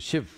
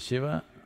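First: The final vowel is cut off. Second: The final vowel is pronounced fully. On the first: "they'll say Shiv" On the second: "If you say Shiva"

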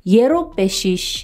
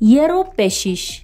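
First: The phrase is said fast and reduced. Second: The same.

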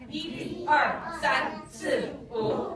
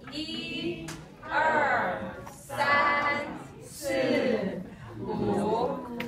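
First: It is said really fast. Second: It is said at a normal pace.

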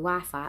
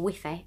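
First: It is pronounced the usual English way. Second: It is pronounced the Spanish way.

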